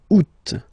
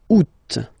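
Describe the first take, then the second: First: The word ends with a clear final T sound. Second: The word ends with a clear final T sound.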